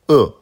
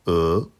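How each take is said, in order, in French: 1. Le ton chute brusquement de haut en bas. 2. Le ton monte du milieu vers le haut. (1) "quatrième ton" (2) "deuxième ton"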